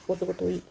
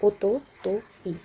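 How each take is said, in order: First: Said in the usual way. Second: ओतोतोई drawn out slowly, each syllable o-to-to-i spoken clearly; slow pronunciation. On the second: Shown as a demonstration. Teacher slowly models ओतोतोई for Hindi-speaking students. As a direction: spell out ओतोतोई slowly for the learners. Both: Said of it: "उसको बोलते हैं".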